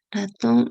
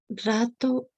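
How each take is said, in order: First: The word is said in full with final n. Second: The final n is dropped, starting with r. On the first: This is the adult form of the word. "en vez de decir ratón" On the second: This is a child's simplified form. "lo dicen rato"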